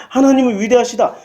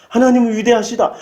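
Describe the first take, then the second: No difference in how they are said.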